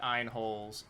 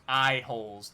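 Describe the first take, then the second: First: Said in the usual way. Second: "Eye holes" with EYE clean and separate, no n before "holes"; clarified pronunciation. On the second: Shown as a demonstration. Player correcting a mishearing, "Eye holes" said distinctly. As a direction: say "Eye holes" firmer, parting the two words. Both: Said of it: "not iron, eye holes".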